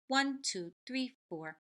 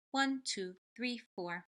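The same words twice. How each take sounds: The two takes are said the same way.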